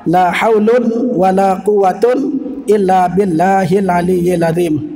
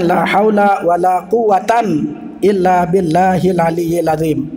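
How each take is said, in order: First: Haul ends in un, quwwat ends in un. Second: Haul ends in a, quwwat ends in an. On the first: "Dan cara yang keempat" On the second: "cara yang kedua bisa dibaca dengan"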